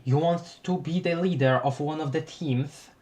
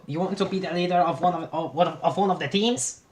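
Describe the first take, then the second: First: Steady, corrected character voice. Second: Higher, laughing, wrong voice; wrong character voice. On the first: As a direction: redo the line in the right voice. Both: Acted. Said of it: "I messed up the frickin' voices".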